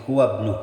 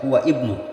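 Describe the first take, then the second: First: The 'i' of ibnu is dropped and linked. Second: The 'i' of ibnu is pronounced separately. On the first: The speaker calls it right. "tapi huwa ibnu" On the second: The speaker calls it wrong. "Tidak boleh dibaca huwa ibnu"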